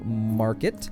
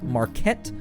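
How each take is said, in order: First: The stress is on the first syllable. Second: The stress is on the second syllable.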